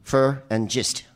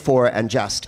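First: The vowels are said the local way. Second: The vowels are said the standard way. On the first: "so we say fur and gist" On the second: "We don't say for and just"

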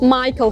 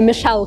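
First: The name is said as 'My-kl'. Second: The name is said as 'Mee-shel'. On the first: The speaker calls it right. "Майкл Корс" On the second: The speaker calls it wrong. "или Мишель Корс"

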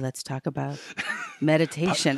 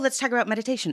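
First: It is said in a soft, hushed, soothing voice. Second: It is said in a normal, lively voice.

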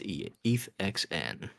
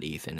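First: The name is said with an 'x' sound inside. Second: The name is said like Ethan, with an 'a' vowel. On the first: The speaker calls it right. "It's EthXN" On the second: The speaker calls it wrong. "I will not pronounce it with an A. It's not Ethan"

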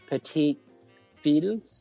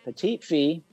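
First: The last word ends with audible L and S sounds. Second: The last word ends without L and S sounds. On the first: The speaker calls it wrong. "Is that what you say?" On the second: The speaker calls it right. "I think you don't pronounce Fee. The L or S"

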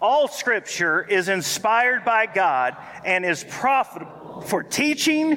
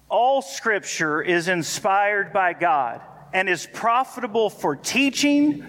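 First: It is read with extra force and energy. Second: It is read plainly, without extra energy.

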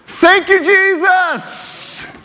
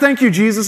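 First: It is said with sincere, joyful thanks. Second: It is said with a sarcastic tone.

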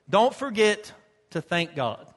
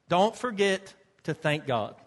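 No difference in how they are said.

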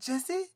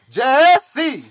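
First: The name is said warmly and happily. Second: The name is called out angrily and urgently.

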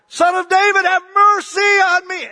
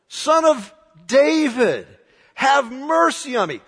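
First: It is yelled very loudly. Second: It is said more quietly.

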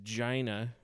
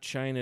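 First: The word begins with a 'j' sound. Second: The word begins with a 'ch' sound. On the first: "It's Gina" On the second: "it's not China"

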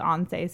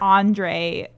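First: The name is said like 'Andzhey'. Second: The name is said like 'Andray'. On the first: The speaker calls it right. "it's actually" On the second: The speaker calls it wrong. "I called him"

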